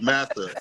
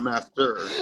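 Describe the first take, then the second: First: The word is said without any T sound. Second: The word is said with a clear T sound. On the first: The speaker calls it right. "The T is silent" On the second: The speaker calls it wrong. "not master"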